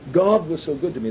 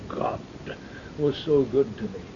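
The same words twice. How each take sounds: First: It is said in a plain, ordinary speaking voice. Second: It is said in a deep, guttural, throaty voice. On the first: The speaker calls it right. "They would say" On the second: The speaker calls it wrong. "They'd never say, ... they take on a guttural tone"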